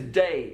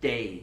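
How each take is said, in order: First: The vowel is said in a standard way. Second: The vowel is said with a tighter sound. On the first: "when he says day" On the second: "it sounds like day"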